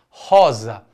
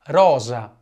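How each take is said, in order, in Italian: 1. La R si fa in gola. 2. La R si fa con la punta della lingua. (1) "também tem o R na garganta" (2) "mesmo quando o R estiver no começo de uma palavra"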